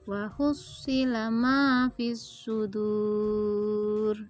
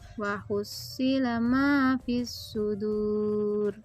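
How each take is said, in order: First: The final vowel is held for six counts. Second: The final vowel is held for four counts. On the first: "Bila enam harokat" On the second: "Bila empat"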